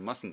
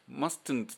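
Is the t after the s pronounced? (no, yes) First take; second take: no; yes. First: The t after the s is dropped. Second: The t after the s is pronounced. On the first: The speaker calls it right. "t をやめてしまってmustn't になっとる" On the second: The speaker calls it wrong. "mustn't と言わずに"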